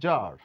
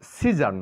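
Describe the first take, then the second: First: The c is silent, not pronounced at all. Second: The c is pronounced as a separate sound. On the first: The speaker calls it right. "সি কে কোনো sound করব না, উচ্চারণ করবো আমরা জার" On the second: The speaker calls it wrong. "এখানে সিজার নয়"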